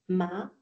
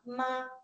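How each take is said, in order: First: The pitch rises from mid to high. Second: The pitch stays high and level.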